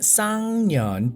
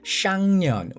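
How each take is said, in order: First: The word begins with a plain s sound. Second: The word begins with an sh sound. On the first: This is the standard form of the word. "it's Sangyeon" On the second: This is how people usually say it. "people kind of like say it's Shangyeon"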